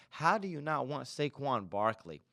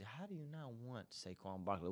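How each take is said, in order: First: Said in the usual way. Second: Much softer, asked half to himself; muttered question. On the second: Real, not acted. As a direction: drop the volume, disbelieving aside. Repeats the question, quieter first.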